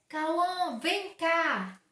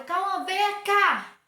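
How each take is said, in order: First: Calling Cauã sharply, a bit louder; firm summons, no arguing; stern call. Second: Slow, loud, higher "Cauã, vem cá" dragged out in anger; angry call. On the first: Mother calling her son Cauã over, cross and firm. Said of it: "Ele sabe que eu tô brava". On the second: Mother demonstrating to pupils how she calls Cauã when angry, slow and loud. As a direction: stretch every word of "Cauã, vem cá" like a furious mother. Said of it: "Ele sabe que eu tô brava e ele vai vir logo". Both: Shown as a demonstration.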